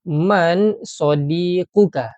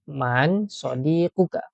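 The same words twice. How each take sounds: First: Man sadiquka drawn out slowly and louder; teacher modelling a question; slow model question. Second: Said in the usual way. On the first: Shown as a demonstration. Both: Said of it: "kita cuba buat".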